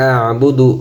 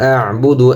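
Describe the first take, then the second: No difference in how they are said.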